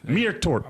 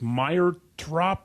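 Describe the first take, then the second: First: The name begins with a 'meer' sound. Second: The name begins with a 'my' sound. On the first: The speaker calls it right. "Much better" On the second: The speaker calls it wrong. "a guy whose name I I am awful at pronouncing"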